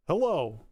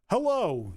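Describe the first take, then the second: First: Robotic phone hello. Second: High, loud stiff operator hello; robotic phone hello. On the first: Real, not acted. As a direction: greet like an answering machine. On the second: Shown as a demonstration. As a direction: sound like a menu greeting. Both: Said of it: "answer it as robotically as I can".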